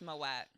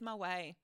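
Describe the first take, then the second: First: The final T sound is pronounced. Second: The final T sound is silent. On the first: The speaker calls it wrong. "Moet is not pronounced Moet" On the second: The speaker calls it right. "The T in French is silent. It is Moet"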